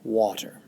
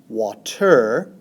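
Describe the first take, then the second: First: The stress is on the first syllable. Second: The stress is on the second syllable. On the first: The speaker calls it right. "it is pronounced water" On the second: The speaker calls it wrong. "It is not pronounced water"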